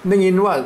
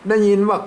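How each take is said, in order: No difference in how they are said.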